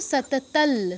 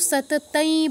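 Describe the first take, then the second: First: The word ends in an 'l' sound. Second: The word ends in an 'ai' sound. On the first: The speaker calls it right. "কি বলবো, সাতাতাল" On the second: The speaker calls it wrong. "সাতাতাই বা সাতাতৌ বলবো না"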